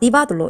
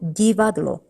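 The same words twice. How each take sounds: First: The first d is hard, not softened. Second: The first d is soft, palatalized. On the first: The speaker calls it wrong. "이렇게 하시면 안 되고" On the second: The speaker calls it right. "읽을 때는 본래 그대로 디"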